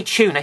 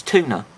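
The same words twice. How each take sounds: First: "Tuna" said as "CHOO-na"; British "chuna". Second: "Tuna" said as "TOO-na"; American "toona". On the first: Shown as a demonstration. Reviewer giving his own way of saying it, "Tuna" as "chuna". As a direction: begin "Tuna" with a ch sound. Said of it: "I'd say Tuna, he goes Tuna". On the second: Retold or imitated. Reviewer imitating the character's accent, "Tuna" as "toona". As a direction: begin "Tuna" with a hard t, no ch. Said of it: "he goes Tuna".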